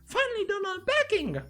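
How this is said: It is said in a funky put-on voice.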